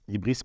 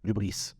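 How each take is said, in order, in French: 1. Le mot commence par la voyelle 'ee'. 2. Le mot commence par la voyelle 'oo'. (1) "Ibris parce qu'on écrit avec un Y" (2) "en réalité qu'on prononce U"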